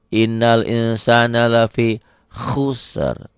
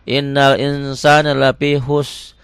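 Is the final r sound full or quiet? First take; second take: quiet; full. First: The final r sound is softer and quieter. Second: The final r sound is not softened. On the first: The speaker calls it right. "R-nya lebih lebih volumenya lebih kecil ya" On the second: The speaker calls it wrong.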